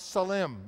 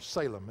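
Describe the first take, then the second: First: It is said with a non-English pronunciation. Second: It is said with an English pronunciation.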